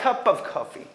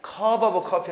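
First: "cup of coffee" joined as cu-puv coffee; higher-pitched linked "cup of coffee"; linked English pronunciation. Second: "cup of coffee" as keop o-beu keo-pi; mock-wrong "cup of coffee" with added vowels; unlinked Korean-style pronunciation. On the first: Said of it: "연결돼야 돼". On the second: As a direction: separate the words of "cup of coffee". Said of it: "cup of coffee 하지 말고". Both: Shown as a demonstration.

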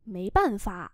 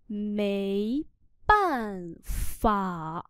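First: Said in the usual way. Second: Mấy, pause, then bàn phả slowly; slow split reading. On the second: Shown as a demonstration. (đọc tách chậm Mấy ... bàn phả) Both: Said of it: "Hết cách".

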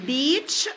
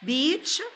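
The two takes are said the same way.

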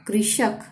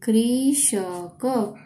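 First: Said in the usual way. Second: कृषक drawn out very slowly, rising; sounding out slowly. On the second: Shown as a demonstration. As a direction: stretch कृषक syllable by syllable.

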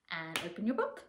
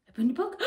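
First: Softer, almost to yourself; soft opening. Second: Higher and brighter, like a surprise is coming; bright opening. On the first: Teacher easing the kids in, softly. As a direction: ease the book open quietly. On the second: Teacher building suspense for the children, lively. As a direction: announce it to the kids with anticipation. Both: Shown as a demonstration. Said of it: "book opening game with kids".

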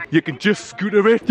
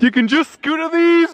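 First: Said in the usual way. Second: Higher, a bit louder, amazed; excited. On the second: Real, not acted. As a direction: pitch it up in delight. Marvels at scooters on street.

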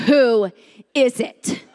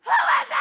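First: Slow, deliberate challenge, each part set apart; low strong voice. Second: Very high, squealed panic yell; panicked shout. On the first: Woman rehearsing her challenge at the door, low and strong. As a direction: sound strong and in command. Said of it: "Have a low voice. Sound strong". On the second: Woman challenging whoever is at the door, panicked shriek. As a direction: let adrenaline burst out in a high screech. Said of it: "And I shouted". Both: Retold or imitated.

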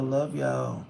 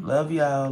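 First: Said in the usual way. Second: Called out loud to the viewers; a louder shout-out of love; loud love y'all. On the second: Real, not acted. Reading comments, calling out love.

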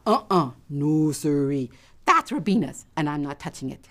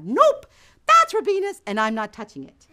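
First: Mild, low-pitched resolve; firm refusal. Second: High, loud nope, settling down; pitched-up, insistent self-denial; emphatic refusal. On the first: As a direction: talk yourself out of it firmly. Resolves to leave triangle. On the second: Resists temptation a second time. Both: Acted.

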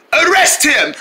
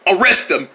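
First: Insistent demand. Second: Said in the usual way. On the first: Acted. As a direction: insist on the arrest. Calling for arrest.

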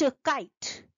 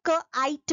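First: "काइट" joined, with the long i; blended word. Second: "क, आइट" broken into k, long i, t; sounded out. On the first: ("काइट" जोड़कर, लंबी ध्वनि के साथ) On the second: ("क, आइट" ध्वनियाँ तोड़कर) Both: Shown as a demonstration. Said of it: "This is a long sound".

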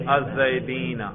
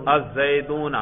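First: الزیدین said with a long -een ending, al-zaideen; the oblique form الزیدین, ending -een, said deliberately; accusative-genitive ending. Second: الزیدون said with a long -oon ending, al-zaidoon; the nominative form الزیدون, ending -oon, said deliberately. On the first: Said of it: "نصب اور جر پہ ذرا تلفظ کرو". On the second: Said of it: "رفع پہ تلفظ کر کے دکھاؤ". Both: Shown as a demonstration.

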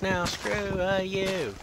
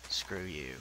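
First: High, loud yelled insult; mock yell. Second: Low muttered insult. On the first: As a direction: shout it up at the tree. Yelling insult at a tree. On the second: Acted. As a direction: lower and softer, muttered. Insult to tree, lower.

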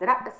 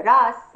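First: رأس said ra's with a clear glottal stop before the s; standard Arabic pronunciation. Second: راس said as raas with a long open aa and no glottal catch; Tunisian pronunciation. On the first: Linguist giving the standard رأس for contrast, hamza clearly stopped. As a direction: keep the hamza in رأس crisp, short vowel. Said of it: "مقابل رأس". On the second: Linguist demonstrating Tunisian راس to the host, long aa without hamza. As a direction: drop the hamza in راس and stretch the vowel, a touch louder. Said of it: "كأن نبدل الهمزة حركة طويلة". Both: Shown as a demonstration.

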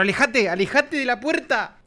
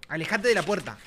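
First: High, drawn-out call; pleading call. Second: Said in the usual way. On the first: Real, not acted. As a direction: call out insistently, stretching the words. Ordering game character away. (llamado insistente y agudo)

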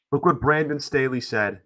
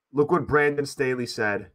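Both takes have the same delivery.

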